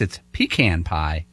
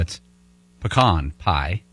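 First: It is said the Northeastern way. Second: It is said the Texas, Arkansas and Oklahoma way.

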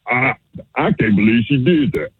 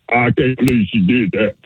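First: It sounds shocked. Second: It sounds upset.

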